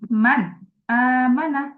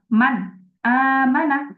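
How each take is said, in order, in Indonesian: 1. Jeda memisahkan huruf n dari kata berikutnya. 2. Jeda memisahkan huruf n dari kata berikutnya.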